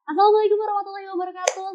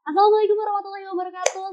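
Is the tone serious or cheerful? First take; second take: cheerful; cheerful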